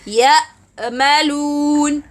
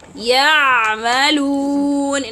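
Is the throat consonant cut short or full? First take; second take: cut; full. First: The throat consonant is cut like a catch. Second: The throat consonant is sounded fully. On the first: The speaker calls it wrong. "someone may read it as" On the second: The speaker calls it right. "for example"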